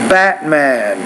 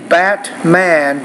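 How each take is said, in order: First: The middle t is a glottal stop. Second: The middle t is fully released. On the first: "a lot of native speakers, I want you to also be familiar with this pronunciation" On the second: "So you can say Batman"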